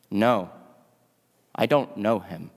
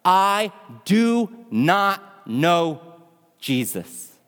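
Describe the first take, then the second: First: Low, subdued denial with hesitant pauses; a mildly scared, low-pitched disowning. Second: Very slow, word-by-word mock yell, dropping on the last word; frustrated yell. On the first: Retold or imitated. Peter, scared, denies knowing Jesus, low and subdued. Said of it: "and he gets scared". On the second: Frustrated Peter yells his last denial, drawn out word by word. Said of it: "frustrated as he yells out".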